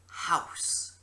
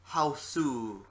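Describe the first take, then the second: First: It is said as the one-syllable English word. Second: It is said with an extra final vowel, hau-su.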